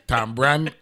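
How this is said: It is said with a 'b' sound in the middle. This is the Saint Croix way of saying it. "Saint Croix the B. The, the, the B is a part of it"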